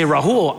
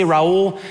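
First: "Rahul" with a breathed h, rah-HOOL; Rahul pronunciation. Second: "Raul" with no h, rah-OOL; Raul pronunciation. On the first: Speaker showing his other name version, with h. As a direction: sound the h in the middle of "Rahul". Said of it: "how to pronounce my own name". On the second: Speaker showing one way he says his name, without h. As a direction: glide straight from "Ra" into "ul". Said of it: "I tell people mixed feelings". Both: Shown as a demonstration.

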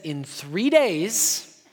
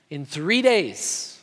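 First: In three days very slow, rising at the end; slow emphatic. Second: In three days very slow, stress on three, falling at the end; slow emphatic. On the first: Preacher quoting Jesus to the congregation, slow rising emphasis. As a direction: spell out In three days slowly, lifting the end like a promise. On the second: Preacher repeating Jesus' words, slow falling emphasis. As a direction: drop the words in three days down slowly, leaning on three. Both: Shown as a demonstration. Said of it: "No, he said".

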